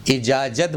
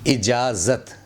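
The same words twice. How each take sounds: First: "اجازت" as ijaajat, with two j sounds; mispronounced j for z. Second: "اجازت" as ijaazat, j then z; careful ijaazat for "اجازت"; correct z sound. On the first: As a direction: say "اجازت" with j replacing z. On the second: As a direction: say "اجازت" with a clear z before the last syllable. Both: Shown as a demonstration. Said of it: "اجازت نہیں".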